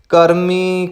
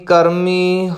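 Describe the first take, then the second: No difference in how they are said.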